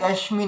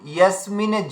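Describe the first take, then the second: First: The middle consonant is a palatal sh sound. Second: The middle consonant is a plain s sound. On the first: The speaker calls it wrong. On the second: The speaker calls it right.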